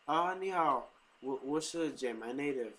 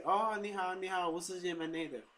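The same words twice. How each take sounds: First: Taiwanese accent. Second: High bright "shi" said like the number four. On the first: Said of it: "So if I say". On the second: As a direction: pitch the "shi" like saying four. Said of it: "like you're saying the number four". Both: Shown as a demonstration.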